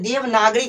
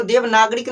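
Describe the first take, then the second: First: "देवनागरी" ending on an open long ee; correct reading. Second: "देवनागरिक" closed with an added k; wrong reading. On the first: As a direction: say "देवनागरी" with no final k. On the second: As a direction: misread it as "देवनागरिक", ending in -rik. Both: Shown as a demonstration. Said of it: "इसको देवनागरिक नहीं पढ़ना".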